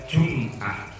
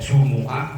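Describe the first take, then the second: First: No vowel follows the m sound. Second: A u vowel follows the m sound. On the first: "boleh dibaca sukun" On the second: "Mimnya boleh dibaca dhammah"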